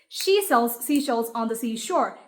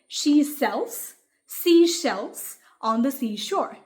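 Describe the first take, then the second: First: It is said at a fast pace. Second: It is said at a slow pace.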